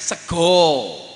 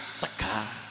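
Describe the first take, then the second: First: It ends with an O sound, Jogja style. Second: It ends with an A sound, Ngapak style.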